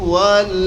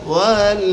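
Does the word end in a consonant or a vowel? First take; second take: consonant; consonant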